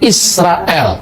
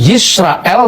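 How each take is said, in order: First: The name begins with an 'ee' vowel. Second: The name begins with a 'y' sound. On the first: This is the form used in the eastern dialect. "di Syria Timur dipakai dialek Shema Israel, bukan Yisrael" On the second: This is the form that keeps the original letter. "huruf Yod ... kadang-kadang berubah menjadi tetap Yod"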